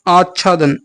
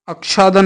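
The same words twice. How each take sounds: First: आच्छादन said as aach-chhadan; correct consonant. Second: आच्छादन said as ak-shadan; wrong consonant. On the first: Teacher correcting students, आच्छादन with doubled chh. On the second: Teacher rejecting an error, आच्छादन with a ksh. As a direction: put ksh in place of chchh in आच्छादन. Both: Shown as a demonstration. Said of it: "नहीं".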